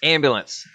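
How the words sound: It is said in a neutral accent. "Now it sounds weird to say it normal"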